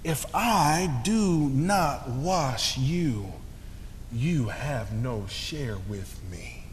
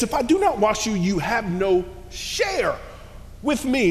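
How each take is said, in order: First: Slow, soft and tender; Jesus tenderly answering Peter, soft and slow; sweetly. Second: Emphatic. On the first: Retold or imitated. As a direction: say it gently, very slowly. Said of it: "Jesus says so sweetly". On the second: Acted. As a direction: declare it with force. Preacher repeats Jesus' words forcefully.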